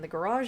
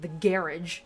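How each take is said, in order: First: Garage is said in the speaker's usual accent. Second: Garage is said with a British pronunciation.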